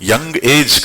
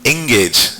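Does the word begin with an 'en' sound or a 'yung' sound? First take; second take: yung; en. First: It starts with a 'yung' sound, like 'young age'. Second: It starts with a plain 'en' sound. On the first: The speaker calls it wrong. "యంగ్ ఏజ్ కాదు" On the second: The speaker calls it right.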